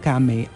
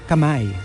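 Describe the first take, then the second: First: It is said the original global way. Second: It is said the older local Filipino way. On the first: This is how it is supposed to be said. "they switched it na rin back to kame as it was" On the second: This is how it was said locally before. "before talaga yun, kam, kamay"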